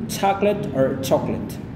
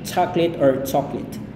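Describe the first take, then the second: No difference in how they are said.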